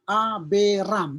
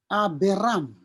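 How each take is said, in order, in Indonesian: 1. Tiga suku kata, dengan vokal sebelum r. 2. Tiga suku kata, dengan vokal sebelum r.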